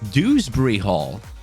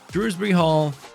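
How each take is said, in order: First: The first syllable has no r sound: Dew. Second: The first syllable has an r sound: Drew. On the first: The speaker calls it right. "wait, it's Dewsbury Hall" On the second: The speaker calls it wrong. "I've been saying it wrong this entire time"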